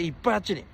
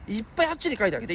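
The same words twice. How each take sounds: First: Said in the usual way. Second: Fast, pushing the word いっぱい; hurried urging. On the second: Real, not acted. Streamer urging chat to post over there, rushed. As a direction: rattle it off to chat.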